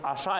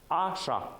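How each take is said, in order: First: The stress is on the last syllable. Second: The stress is on the first syllable. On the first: It is the word 'through'. The speaker calls it wrong. "это уже будет слово через после лог" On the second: It is the command 'eat'. The speaker calls it right. "Ударение на первый слог в таких случаях"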